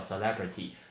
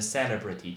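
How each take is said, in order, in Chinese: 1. 重音在第二个音节上。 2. 重音不在第二个音节上。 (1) "重音在le，叫celebrity" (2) "这个字超级多人会念成celebrity，错"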